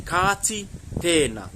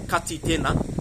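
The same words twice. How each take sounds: First: "Ka ti tēnā" slowly, every vowel drawn out; long vowels. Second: "Ka ti tēnā" with the vowels cut short. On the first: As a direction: hold the long vowels in "Ka ti tēnā", two distinct words. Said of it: "some long vowel sounds in there". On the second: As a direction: say "Ka ti tēnā" quickly, without lengthening any vowel. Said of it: "I'm not saying". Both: Shown as a demonstration.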